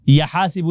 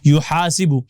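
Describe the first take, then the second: First: The word begins with a 'ya' sound. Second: The word begins with a 'yu' sound. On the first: The speaker calls it wrong. "या हासिबु नहीं" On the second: The speaker calls it right. "बल्कि युहासिबु"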